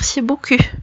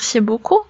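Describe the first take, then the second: First: The last vowel is a rounded front 'u' sound. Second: The last vowel is a rounded back 'oo' sound. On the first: The speaker calls it wrong. "تتخرجلو" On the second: The speaker calls it right. "في عوض ما يقول merci beaucoup"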